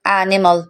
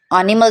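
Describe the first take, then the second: First: एनिमल opening on "ae"; correct vowel. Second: एनिमल opening on "aa"; wrong pronunciation. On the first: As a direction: say एनिमल as "ae-ni-mal". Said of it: "हम इसे एन पढ़ेंगे". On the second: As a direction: say एनिमल as "aa-ni-mal". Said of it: "तो नहीं पढ़ेंगे ना इसको". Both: Shown as a demonstration.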